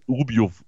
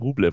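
First: The name ends with a 'lyov' sound. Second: The name ends with a 'lev' sound. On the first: The speaker calls it wrong. "und nicht Rubjov" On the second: The speaker calls it right. "In diesem Podcast heißt der Rublev"

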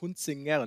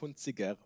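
First: The name is pronounced clearly and carefully. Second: The name is pronounced in a mumbled way. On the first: The speaker calls it right. "Das heißt Hunziger" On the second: The speaker calls it wrong. "nicht Hunziger ... ein norddeutsches Nuschelproblem"

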